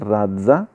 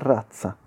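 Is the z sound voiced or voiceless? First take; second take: voiced; voiceless. First: The z is voiced, like dz. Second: The z is voiceless, like ts. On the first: The speaker calls it wrong. "non è razza" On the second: The speaker calls it right. "Sorda ... ma è razza"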